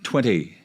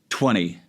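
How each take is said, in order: First: The middle T is clearly pronounced. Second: The middle T is dropped, sounding like twenny. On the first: The speaker calls it right. "instead of twenty" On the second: The speaker calls it wrong. "almost like it's you're saying it with a couple of N's"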